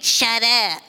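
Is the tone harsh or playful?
harsh. It sounds like a harsh, rude command.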